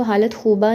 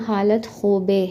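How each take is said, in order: First: हालत ख़ूबा ending in "aa"; wrong Persian pronunciation. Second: हालत ख़ूबे ending in "e"; Persian pronunciation. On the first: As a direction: say हालत ख़ूबा with final -baa, as in Urdu. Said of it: "हालत ख़ूबा नहीं पढ़ना". (हालत ख़ूबा, आख़िर में "आ") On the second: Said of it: "बल्कि आपने इसको पढ़ना". (हालत ख़ूबे, आख़िर में "ए") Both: Shown as a demonstration.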